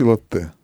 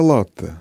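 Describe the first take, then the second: First: Латте stressed on the final ТЕ; weight on the last syllable of латте; French stress. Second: Латте stressed on the first syllable ЛА; strong ЛА and light ending in латте; Italian stress. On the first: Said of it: "а по-французски". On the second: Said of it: "по-итальянски правильно". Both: Shown as a demonstration.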